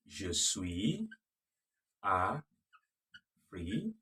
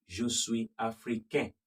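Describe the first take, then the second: First: Africaine drawn out slowly with the N clearly pronounced; sounded N in africaine. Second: Africain ends on a nasal vowel, the N left silent. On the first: Teacher slowly modelling the female form. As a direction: stretch africaine and let the N ring out. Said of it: "And for the female". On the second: Teacher contrasting the male form with the female. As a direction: swallow the N of africain into the nose. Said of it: "For the male". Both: Shown as a demonstration.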